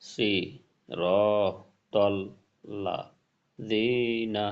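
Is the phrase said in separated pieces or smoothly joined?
separated. Each syllable is said apart with pauses between. "ভাঙা ভাঙ্গা"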